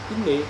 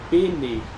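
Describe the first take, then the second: First: Only a brief murmur links B and N. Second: A full E vowel separates B and N. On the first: The speaker calls it right. "ele está só fazendo a ligação da consoante Bet para a consoante Nu" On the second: The speaker calls it wrong. "não pronunciamos esse sinalzinho vocálico, o Shivá simples, como um E cheio"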